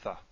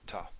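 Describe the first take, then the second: First: The first consonant is a soft fricative. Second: The first consonant is a plain stop. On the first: This follows the historical pronunciation. "the probably historically correct way" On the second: This follows the modern pronunciation. "with modern Hebrew pronunciation"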